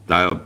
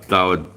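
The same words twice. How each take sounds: The two takes are said the same way.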